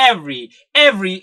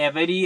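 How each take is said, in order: First: "every" said as "ev-ry", the middle e dropped; clipped native "every"; two-syllable every. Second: "every" said in full as "ev-e-ry"; wrong, over-careful "every"; three-syllable every. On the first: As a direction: cut the middle vowel. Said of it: "ഇതിന്റെ pronunciation വരുന്നത്". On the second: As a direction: sound every letter. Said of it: "എന്നൊന്നും ഒരിക്കലും പറയില്ല". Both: Shown as a demonstration.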